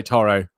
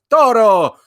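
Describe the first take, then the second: First: Said in the usual way. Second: TORO high, loud, in a showy accent; put-on accent. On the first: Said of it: "You just say Toro". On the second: Shown as a demonstration. Host showing Sam how to call the dog, put-on accent. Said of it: "give it an accent".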